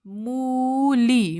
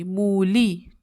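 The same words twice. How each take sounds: First: मूली stretched very slowly, each vowel held long; drawn out. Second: Said in the usual way. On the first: Shown as a demonstration. Teacher sounding out the word for the child to write, drawn out.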